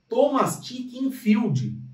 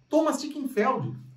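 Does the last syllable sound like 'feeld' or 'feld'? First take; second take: feeld; feld. First: The last syllable has an 'ee' vowel. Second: The last syllable has an 'eh' vowel. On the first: The speaker calls it wrong. "eu achava que era Thomas Chickenfield" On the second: The speaker calls it right. "Não, não, é Thomas Chickenfeld"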